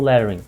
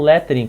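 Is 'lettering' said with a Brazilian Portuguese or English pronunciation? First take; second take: English; Brazilian Portuguese. First: The word has an English pronunciation. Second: The word has a Brazilian Portuguese pronunciation. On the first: The term is treated as an English word. "se eu estiver falando inglês, aí automaticamente meu cérebro processa, eu falo lettering" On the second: The term is treated as a Portuguese loanword. "eu normalmente falo lettering quando estou falando em português"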